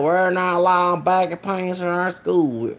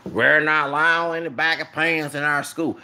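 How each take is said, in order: First: A light imitation of an old Southern principal's accent. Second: Put-on a deeper retake of the Southern principal accent. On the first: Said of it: "I be doing these accents". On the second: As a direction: lower the voice and do the stern old Southern principal again. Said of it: "let me get more deeper".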